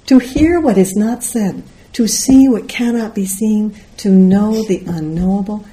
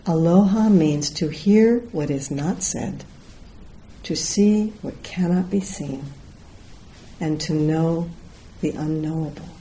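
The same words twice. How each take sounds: First: Louder, higher, "To hear what is not said" driven home; emphatic repeat. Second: Solemn reading. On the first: Teacher relishing sheer Dogen, emphatic repeat. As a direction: run "to know the unknowable" on with raised, insistent voice. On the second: Teacher reading the Aloha Spirit law, solemn and measured. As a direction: let each phrase settle, softening toward the end. Reads closing words of the law. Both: Real, not acted.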